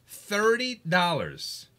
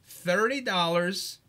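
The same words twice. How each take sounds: The two takes are said the same way.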